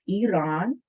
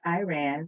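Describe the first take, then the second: First: The first vowel does not sound like 'eye'. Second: The first vowel sounds like 'eye'. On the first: The speaker calls it right. "The I portion is not pronounced" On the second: The speaker calls it wrong. "not Iran. That's actually a, a mispronunciation"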